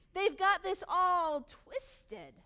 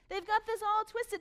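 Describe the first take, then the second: First: Drawn out, very slow and heavy, higher and louder; slow emphatic. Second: Said in the usual way. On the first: Shown as a demonstration. Preacher to church, dragging it out slowly. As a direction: spell it out word by word.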